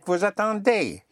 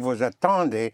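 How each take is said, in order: First: The final ending is pronounced clearly and fully. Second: The final ending is dropped and hard to hear. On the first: The speaker calls it right. "Right, vous attendez" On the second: The speaker calls it wrong. "then some people will not understand you, because they will not hear the ending"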